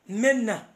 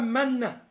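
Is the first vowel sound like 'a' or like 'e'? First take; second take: e; a. First: The first vowel sounds like 'e'. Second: The first vowel sounds like 'a'. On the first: "I mean pronunciation yaabwe eri menna" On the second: "Bwe bakutuuma manna"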